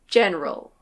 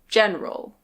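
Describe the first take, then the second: Both takes have the same delivery.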